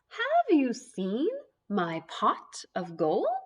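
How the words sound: It is said in a put-on leprechaun voice.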